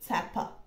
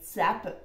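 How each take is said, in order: First: The name has a Russian pronunciation. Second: The name has an American pronunciation. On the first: The speaker calls it right. "when you read it, it's like Capa" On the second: The speaker calls it wrong. "Maybe Americans will pronounce it like Capa, which is cringy"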